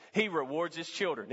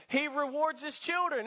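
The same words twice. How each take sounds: First: Said in the usual way. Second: Put-on higher, leaning hard on children; emphatic repeat. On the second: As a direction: lift the line up and punch children. Preacher repeats it, lifted up.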